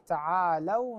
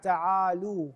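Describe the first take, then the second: First: The l sound is followed by an a vowel. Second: The l sound is followed by a u vowel. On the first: The speaker calls it right. "صحيح تعالوا" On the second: The speaker calls it wrong. "بعض الناس يقرأها فقل تعالوا"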